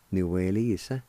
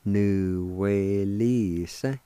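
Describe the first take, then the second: First: Said in the usual way. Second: Nuwelisa stretched out smoothly; slow pronunciation. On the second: Shown as a demonstration. Teacher showing how nuwelisa joins up, slow and drawn out. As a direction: glide slowly through every syllable of nuwelisa. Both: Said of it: "It's pronounced like this".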